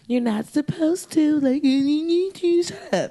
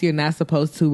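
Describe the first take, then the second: First: Put-on high, slow whiny kid; annoying kid. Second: Said in the usual way. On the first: Bratty kid telling someone to shut up, high and slow. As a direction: whine like a bratty classmate. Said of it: "annoying kids that I went to school with". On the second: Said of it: "reminded me of, like, annoying kids".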